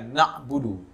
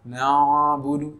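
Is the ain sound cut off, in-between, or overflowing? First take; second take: cut off; overflowing. First: The ain sound is abruptly stopped in the throat. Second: The ain sound flows on for too long. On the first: "bukan dengan cara menghentikan suara" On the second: "bukan dengan cara mengalirkan suara dengan berlebihan"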